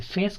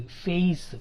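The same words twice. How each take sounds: First: ఫేస్ with a pure e, no glide; single vowel. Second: ఫేస్ as "feh-is"; two vowel sounds in ఫేస్; diphthong glide. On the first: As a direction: say ఫేస్ as "fehs". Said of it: "కాదు". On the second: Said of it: "ఏఈ అని పలకాలి". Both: Shown as a demonstration.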